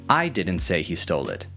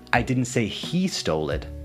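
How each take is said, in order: First: The word 'I' carries the main stress. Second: The word 'he' carries the main stress. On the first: Someone else said it. "emphasizing that it wasn't me who said it" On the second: Someone other than that person did it. "you're not accusing that particular person"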